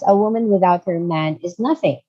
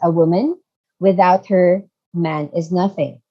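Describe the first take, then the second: First: It is read straight through without pauses. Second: It is read with pauses inside the sentence.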